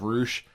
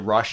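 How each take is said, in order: First: The name has a long vowel, like 'moose'. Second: The name has a short vowel, like 'rush'. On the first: The speaker calls it right. "I knew it was Roosh" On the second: The speaker calls it wrong. "I would always say Rush instead of Roosh"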